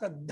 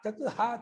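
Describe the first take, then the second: First: The two words are fused into one sound. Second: The two words are said separately, unjoined. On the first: "ಜಸ್ತ್ವ ತತ್ ಹ ತದ್ಧ ಆಗಿದೆ" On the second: "ಜಸ್ತ್ವ ತತ್ ಹ ತದ್ಧ ಆಗಿದೆ"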